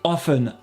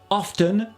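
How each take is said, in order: First: The T is silent. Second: The T is sounded. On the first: "sans le T" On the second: "avec le T"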